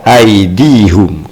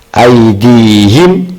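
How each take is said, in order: First: The last syllable is said with a 'u' vowel. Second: The last syllable is said with an 'i' vowel. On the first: The speaker calls it wrong. "tidak dibaca aidihum" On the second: The speaker calls it right. "Aidihim tidak dibaca aidihum"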